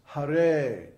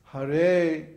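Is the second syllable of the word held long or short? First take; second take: long; long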